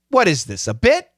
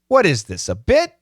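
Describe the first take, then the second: First: The pause comes after "this". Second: The pause comes after "this".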